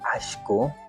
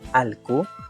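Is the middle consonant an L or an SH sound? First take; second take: SH; L. First: The middle consonant is an SH sound. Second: The middle consonant is a plain L sound. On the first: This is the central highland pronunciation. "al menos en la Sierra Centro, lo dicen Ashku" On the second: This is the northern highland pronunciation. "la escritura es tal como está aquí"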